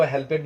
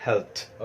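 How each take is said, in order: First: हेल्पेड said with an extra vowel, help-ed; the wrong way, हेल्पेड as two full syllables; हेल्पेड pronounced hel-ped; wrong pronunciation. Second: हेल्प्ड said as one syllable, helt; the right way, हेल्प्ड with a clipped final t sound; हेल्प्ड pronounced as one short syllable; correct pronunciation. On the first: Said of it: "इसको हेल्पेड नहीं पढ़ेंगे". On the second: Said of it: "इसको हम लोग पढ़ेंगे हेल्प्ड". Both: Shown as a demonstration.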